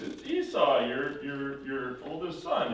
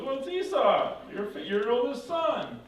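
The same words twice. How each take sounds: First: Said in the usual way. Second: High, insistent protest; baffled son. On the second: Retold or imitated. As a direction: act the real son, puzzled and emphatic. Real Esau answers, baffled.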